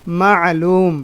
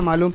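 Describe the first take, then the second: First: It is said with a throaty guttural 'ain' sound. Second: It is said plainly, without a throaty guttural sound. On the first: This is how it is said here in Saudi Arabia. "यहाँ अगर मालूम बोलना है तो थोड़ा आइन से बोलना है" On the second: This is how it is said back home. "मालूम तो अपने वहाँ चलता है"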